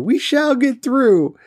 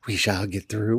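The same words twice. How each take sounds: First: High, loud, slow "We shall get through" with a falling end; grand proclamation. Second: Low soft "We shall get through" with a rising "through"; quiet mutter. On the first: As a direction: proclaim it like a battle cry. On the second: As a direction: mutter it to yourself. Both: Real, not acted. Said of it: "repeats phrase two ways".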